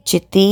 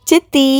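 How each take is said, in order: First: Said in the usual way. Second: Put-on a child's loud high cry of Siddhi; yelling. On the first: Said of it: "அலறினான்". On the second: A narrator's reading. Little boy shouting for his aunt on the phone. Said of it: "அலறினான் Charan".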